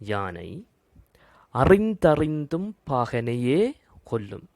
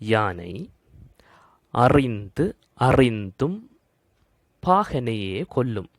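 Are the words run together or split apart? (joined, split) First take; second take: joined; split. First: The words are run together at their boundaries. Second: The words are split apart at their boundaries. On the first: "பாடநூல்ல உள்ளது போலவே" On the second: "சந்தி பிரித்துச் சொல்லுகின்றேன்"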